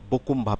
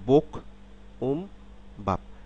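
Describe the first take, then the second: First: The consonant links smoothly into the next vowel. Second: The syllables are said apart, without linking. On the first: "একসাথে বললে" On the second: "আমি আলাদাভাবে বললে"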